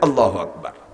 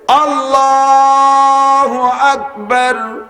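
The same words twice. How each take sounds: First: It is said quickly and short. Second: It is said slowly, drawn out.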